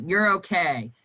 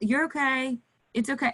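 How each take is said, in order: First: Curt reassurance. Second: Gentle reassurance. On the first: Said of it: "you can't be like". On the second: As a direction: soothe the child, lightly and kindly. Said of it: "You have to". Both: Shown as a demonstration.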